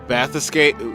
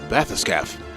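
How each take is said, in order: First: It sounds like the two words 'bath escape'. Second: It sounds like one word, 'bathyscaphe'. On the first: The speaker calls it wrong. "That's not how you say it" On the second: The speaker calls it right. "I was close"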